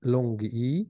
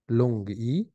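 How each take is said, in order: Both takes have the same delivery.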